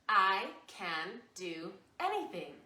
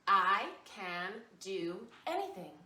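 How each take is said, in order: No difference in how they are said.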